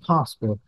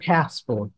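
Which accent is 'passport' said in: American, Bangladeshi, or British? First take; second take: British; American. First: The word is said in a British accent. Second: The word is said in an American accent. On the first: "British বলে কি" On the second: "American বলে কি"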